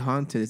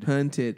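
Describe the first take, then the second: First: The first vowel sounds like 'aw'. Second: The first vowel sounds like 'uh'. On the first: "They don't say haunted" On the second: "They say hunted"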